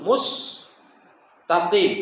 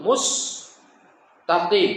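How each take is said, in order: First: The word is said with a clear s sound. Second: The word is said with a clear s sound.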